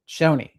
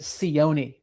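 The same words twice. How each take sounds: First: The name begins with a 'chone' sound. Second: The name does not begin with 'chone'. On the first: The speaker calls it right. "Cioni is how it's pronounced, with a C H O N E" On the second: The speaker calls it wrong. "I was pronouncing it Cioni before, but that is not correct"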